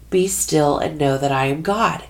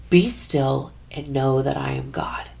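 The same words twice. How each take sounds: First: Said in the usual way. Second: Breathy hushed whisper, no voice. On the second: Retold or imitated. Teresa recalls God's words coming to her, whispered. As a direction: whisper it like a thought arriving. Inner voice of God heard.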